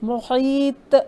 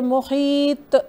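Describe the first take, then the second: First: The final consonant ends with an echoing bounce. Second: The final consonant ends with an echoing bounce.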